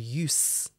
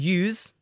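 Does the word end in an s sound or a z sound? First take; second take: s sound; z sound. First: The word ends in an unvoiced s sound. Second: The word ends in a voiced z sound. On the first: It is the noun, meaning the purpose of something. "the noun, the use of something, has the unvoiced s sound" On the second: It is the verb, meaning to employ something. "the verb to use, has the voiced z sound"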